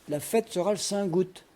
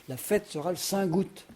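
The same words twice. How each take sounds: The two takes are said the same way.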